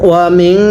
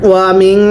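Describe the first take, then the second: Both takes have the same delivery.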